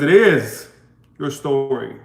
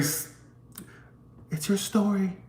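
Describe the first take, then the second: First: It is said loudly with a raised voice. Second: It is said quietly without a raised voice. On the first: The message must reach people far away. The speaker calls it right. "why are you raising your voice? Because I got to get it to the people in the back" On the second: The message would not hold attention. The speaker calls it wrong. "if I say it very"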